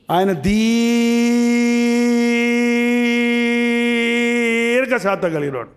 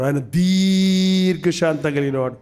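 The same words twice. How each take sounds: First: దీర్ఘశాంతం stretched very long and slow; long drawn word. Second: Said in the usual way. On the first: Shown as a demonstration. Preacher to congregation, showing how long his patience is, drawn out slowly. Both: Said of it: "ఎంత దీర్ఘం?".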